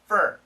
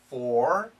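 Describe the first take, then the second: First: The word has a short, reduced vowel. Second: The word has a full, clear vowel. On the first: "many Americans, we shorten it to fur" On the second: "perfect pronunciation, for"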